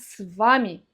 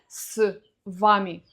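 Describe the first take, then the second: First: The two words run together without a pause. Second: The preposition is split from the word by a pause. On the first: The speaker calls it right. "а с вами" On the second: The speaker calls it wrong. "Не с вами"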